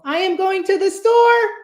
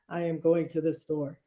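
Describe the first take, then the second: First: It is said in a high voice. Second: It is said in a low voice.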